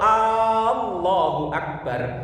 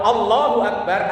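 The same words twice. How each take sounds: First: The first vowel is drawn out long. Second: The first vowel is said short. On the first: It asks whether God is really the greatest. The speaker calls it wrong. "A-nya dibaca panjang, itu ada huruf istifham di situ" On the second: It states that God is the greatest. The speaker calls it right. "Kalau Allahu Akbar artinya Allah yang maha besar"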